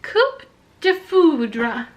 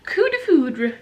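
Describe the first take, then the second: First: Slow "Coupe de foudre", audible P closing Coupe; P pronounced. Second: "coup de foudre" with the P left silent. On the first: Real, not acted. Mother trying the French word for her child, P pronounced. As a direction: say "Coupe" with the P sounded, slowly. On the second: Shown as a demonstration. Mother correcting the French word for her child, silent P. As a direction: say "coup" as "koo", no P. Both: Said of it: "you don't pronounce the P in coup".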